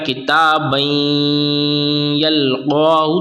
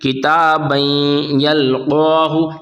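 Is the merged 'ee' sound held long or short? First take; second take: long; short. First: The merged sound is held beyond two counts. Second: The merged sound is held for two counts. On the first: The speaker calls it wrong. "अगर हमने गलत पढ़ दिया किताबन यल्क़ाहु तो ये गलत होगा" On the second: The speaker calls it right. "एक अलिफ यानी कि दो हरकत के बराबर खींच कर पढ़ने की है"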